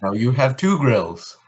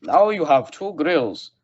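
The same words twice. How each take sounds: First: Bad German accent; mock German accent, heavy and stiff. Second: Hammed-up German accent, higher; bad German movie villain accent. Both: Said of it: "That's a bad German accent".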